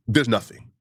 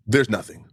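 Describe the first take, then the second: No difference in how they are said.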